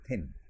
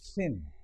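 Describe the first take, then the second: First: The first sound is made without friction. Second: The first sound is made with audible friction. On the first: "all of us say thin ... your tongue will be behind your teeth" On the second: "The tongue will be between the teeth and there will be some amount of friction"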